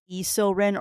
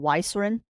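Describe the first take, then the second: First: The name begins with an added ee sound. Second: The name begins with an added why sound. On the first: "many many people do it as E Silrin" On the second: "or Y Silrin because of the Y on the front"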